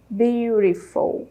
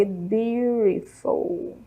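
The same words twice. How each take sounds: First: Beautiful said again, slow and clear; repeat model word. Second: Beautiful drawn out slowly and softly, syllable by syllable; modeling pronunciation. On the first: Teacher repeating beautiful for students, slow. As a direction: echo beautiful once more, slowly. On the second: Teacher modeling beautiful for students, very slow. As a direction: stretch out beautiful for the class. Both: Shown as a demonstration. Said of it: "Com três sílabas aí".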